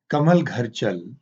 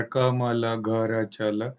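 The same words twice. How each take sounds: First: Slow, even reading of कमल घर चल; slow natural phrase. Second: कमल घर चल dragged out word by word; very slow halting reading. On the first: Teacher modelling natural reading, slow and even. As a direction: say it as one easy phrase. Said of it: "जैसे बोलते हैं". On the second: Teacher showing the struggling reading to avoid, very slow. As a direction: stretch each word, searching for it. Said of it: "ये नहीं कर रहा है". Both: Shown as a demonstration.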